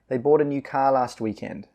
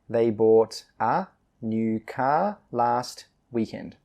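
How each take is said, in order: First: The sentence is read quickly, with reduced 'a'. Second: The sentence is read slowly and carefully.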